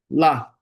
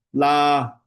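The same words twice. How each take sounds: First: 拉 said briefly, not held; a quick single-beat 拉; short LA. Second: 拉 held long on a high pitch; high, drawn-out 拉; wrongly long LA. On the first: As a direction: keep 拉 short. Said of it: "拉就好了". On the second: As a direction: stretch 拉 out as the mistake. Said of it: "这样不要那个拉". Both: Shown as a demonstration.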